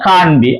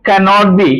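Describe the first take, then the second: First: The negative is said as one-syllable contracted can't. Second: The negative is said as full two-syllable cannot. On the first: "short form ആണ് കാൺ ബി" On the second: "കനോട്ട് ബിയുടെ"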